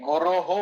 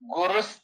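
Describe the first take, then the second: First: The word ends with an h-sound. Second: The word ends with an s-sound. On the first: The word is said on its own. "ಬಿಡಿಸಿ ಹೇಳುವಾಗ" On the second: The word is joined to the next word. "ಒಟ್ಟಿಗೆ ಅಲ್ಲಿದೆ"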